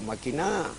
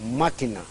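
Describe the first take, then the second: First: The stress is on the third syllable. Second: The stress is on the first syllable. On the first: It is a command to scheme. "como imperativo voceante de maquinar es aguda" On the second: It is the noun for a device. "Como sustantivo es esdrújula"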